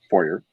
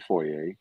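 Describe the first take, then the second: First: Foyer is said with an American pronunciation. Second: Foyer is said with a British pronunciation.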